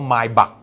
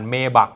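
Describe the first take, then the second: First: The first syllable sounds like 'my'. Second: The first syllable sounds like 'may'. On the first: The speaker calls it right. "เขาอ่านว่า" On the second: The speaker calls it wrong. "อย่าทะลึ่งอ่านMaybach นะ"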